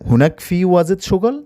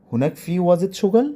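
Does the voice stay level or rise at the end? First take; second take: rises; rises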